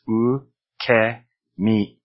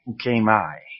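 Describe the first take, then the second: First: The vowel after k sounds like eh. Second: The final vowel sounds like eye. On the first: The speaker calls it right. "So ukemi" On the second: The speaker calls it wrong. "if I did that with ukemi, we'd probably end up with something like ukemai"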